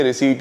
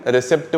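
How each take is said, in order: First: रिसीट with a silent p; रिसीट ending in a plain t, no p sound; correct pronunciation. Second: रिसिप्ट with the p sounded; रिसिप्ट as "ri-SEPT", short vowel before pt; layman's pronunciation. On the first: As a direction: say रिसीट as "ri-SEET", long ee. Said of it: "वैसे actual में ये रिसीट ही होती है". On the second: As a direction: say रिसिप्ट with an audible "pt" ending. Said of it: "आम एक लेमन रिसिप्ट word use करता है". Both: Shown as a demonstration.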